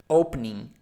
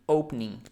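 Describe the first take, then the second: The two takes are said the same way.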